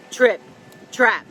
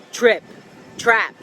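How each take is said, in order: Both takes have the same delivery.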